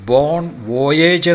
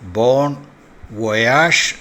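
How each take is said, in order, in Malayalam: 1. അവസാന വാക്ക് 'ayj' ശബ്ദത്തിലാണ് അവസാനിക്കുന്നത്. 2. അവസാന വാക്ക് 'azh' ശബ്ദത്തിലാണ് അവസാനിക്കുന്നത്. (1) "അല്ല ഉച്ചരിക്കേണ്ടത്" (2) "ബോൺ വൊയാഷ് എന്നാണ്"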